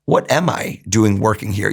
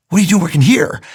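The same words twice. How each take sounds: First: Slow, musing inner voice; inner question. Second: Retold astonished question, higher and louder; mock surprise from the boss; surprised boss. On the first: Retold or imitated. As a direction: ask it to yourself, slowly. Inner voice asking the same.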